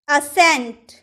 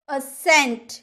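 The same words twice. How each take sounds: No difference in how they are said.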